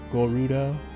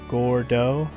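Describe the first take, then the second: First: A short u vowel sits between r and d. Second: The r and d run together with no vowel.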